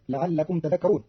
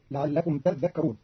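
First: Said in the usual way. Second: "تذكرون" with a held, doubled dhal. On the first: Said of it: "قرأ قالون كلمة تذكرون". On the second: Shown as a demonstration. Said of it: "بتشديد الذال".

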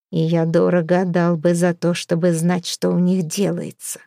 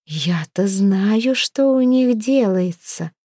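First: Said in the usual way. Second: Drawling hint. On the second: A narrator's reading. Girl hinting she knows the newcomers' secrets, drawling. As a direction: draw it out as if hiding a secret. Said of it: "с намёком протянула Хёрдис".

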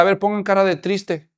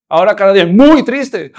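First: Said in the usual way. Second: "muy" hit hard and louder; emphatic jump on "muy"; stress on muy. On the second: Shown as a demonstration. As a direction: punch the "muy" before triste. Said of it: "No es lo mismo ponerse triste".

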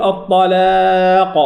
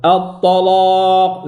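First: "الطلاق" with a light, clear L and fronted A; held "لا" in "الطلاق", not darkened; light, thin lam. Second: "الطلاق" with a thick, dark L and long back A; slow, held "الطلاق", L darkened; heavy, thickened lam. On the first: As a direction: chant "الطلاق" keeping the L thin. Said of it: "لا يقول الطلاق". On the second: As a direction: chant "الطلاق" with every letter heavy but the hamza. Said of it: "مفخمة إلا الهمزة". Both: Shown as a demonstration.

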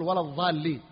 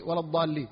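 First: "الضالين" with an emphatic th (ظ) in place of dad; dad turned to zha. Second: Said in the usual way. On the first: Shown as a demonstration. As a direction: demonstrate the common swap, ظ sound opening "الضالين". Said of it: "بعض الناس يقول". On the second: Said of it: "وهذا يظهر عند قوله".

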